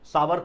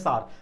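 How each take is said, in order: First: The word is said in two syllables. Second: The word is said in one syllable. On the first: The speaker calls it wrong. "सावर कुछ लोग बोलते हैं, सावर नहीं बोला जाता है" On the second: The speaker calls it right. "Pronunciation उसका होता है सार"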